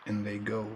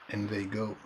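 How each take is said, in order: Both takes have the same delivery.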